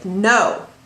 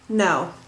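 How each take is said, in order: First: It is said firmly with more force. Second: It is said softly with little force. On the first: "create a little bit more impact" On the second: "It's it's low impact"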